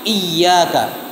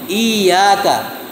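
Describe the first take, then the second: First: The y sound is doubled after a short vowel. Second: The first vowel is lengthened without a doubled y. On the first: It means only to you. The speaker calls it right. "Seharusnya iyyaka, tidak mat" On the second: The meaning changes to worshipping sunlight. The speaker calls it wrong. "i-nya dibaca panjang. Iyyaka, itu menghilangkan tasydid"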